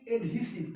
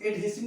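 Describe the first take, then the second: First: एडहेसिव said with an "ee" middle, ed-HEE-siv; correct pronunciation. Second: एडहेसिव said with an "e" middle, ed-HE-siv; wrong pronunciation. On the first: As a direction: say एडहेसिव as "ed-heesiv". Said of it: "क्या पढ़ेंगे?". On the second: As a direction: say एडहेसिव as "ed-hessiv". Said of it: "इसको एडहेसिव नहीं पढ़ेंगे". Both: Shown as a demonstration.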